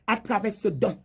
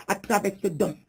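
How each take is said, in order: Both takes have the same delivery.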